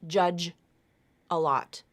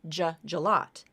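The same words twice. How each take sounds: First: The words are said separately. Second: The final J sound joins onto the next word. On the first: The speaker calls it wrong. "It's not judge a lot" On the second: The speaker calls it right. "That final J sound moves over to the beginning of the next word"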